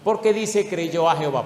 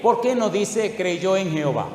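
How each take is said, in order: First: "a" in "creyó a Jehová" leaned on; stress on a. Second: "en" in "creyó en Jehová" leaned on; stress on en. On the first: Preacher contrasting "creyó a", pressing the word "a". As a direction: punch the little "a" of "creyó a Jehová". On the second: Preacher contrasting "creyó en", pressing the word "en". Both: Shown as a demonstration. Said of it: "Ponga cuidado ahora".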